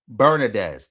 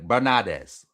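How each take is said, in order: First: The name is said with an English pronunciation. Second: The name is said with a Spanish pronunciation. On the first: "That's how you say it in pretty much how you say it in English" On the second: "in like Spanish you'll say Bernadez"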